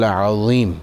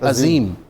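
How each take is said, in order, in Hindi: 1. 'z' की ध्वनि emphatic zoe है। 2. 'z' की ध्वनि plain zaal या ze है। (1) "आप पढ़ते हैं सुब्हान रब्बियल अज़ीम" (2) "अक्सरियत इसको पढ़ती है अजीम, वो होता है ज़ाल या जे से"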